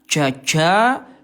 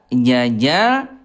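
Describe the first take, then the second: First: The j leaks air as it is released. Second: The j is released with no air leaking. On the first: The speaker calls it wrong. "jaja itu kurang tepat ya" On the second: The speaker calls it right. "yang kedua tidak ada udara ya"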